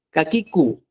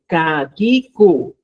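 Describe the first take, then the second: First: Kakiku said once at normal speed; quicker repeat. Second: Kakiku, slow and syllable by syllable with a louder start; slow drilled kakiku; slow pronunciation drill. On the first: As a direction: run kakiku at normal pace. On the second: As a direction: spell out kakiku slowly for the students. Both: Shown as a demonstration. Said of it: "para que usted practique".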